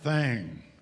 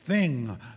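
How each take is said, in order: First: The vowel sounds like 'ang'. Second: The vowel sounds like 'ing'. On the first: The speaker calls it wrong. "not thang" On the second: The speaker calls it right. "Thing, not thang"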